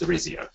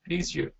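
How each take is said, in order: First: It is anglicized, ending in a diphthong. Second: It is Brazilian, without the final diphthong. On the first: "if you anglicize it ... I use a diphthong at the end of my name" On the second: "if I'm in Brazil, my name is"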